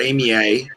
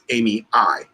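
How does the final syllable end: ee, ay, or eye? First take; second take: ay; eye. First: The name ends with an ay sound. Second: The name ends with an eye sound. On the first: The speaker calls it wrong. "or Amy A" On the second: The speaker calls it right. "because the A E is pronounced I"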